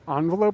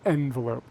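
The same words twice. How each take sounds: First: The first vowel sounds like 'ah'. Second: The first vowel sounds like 'eh'.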